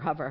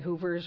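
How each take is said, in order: First: The first vowel is short, as in cover. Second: The first vowel is a long oo sound. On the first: The speaker calls it right. "cover, lover. So yesterday as I'm studying, I'm saying hover" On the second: The speaker calls it wrong. "I say hoovers, or I just have this block"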